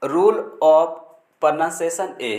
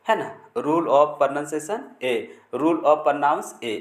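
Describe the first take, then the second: First: Said in the usual way. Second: "rule of pronunciation A" spoken very slowly, word by word; slow dictation. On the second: Shown as a demonstration. ("rule of pronunciation A" धीरे-धीरे, शब्द-शब्द करके) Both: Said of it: "English में बोलेंगे".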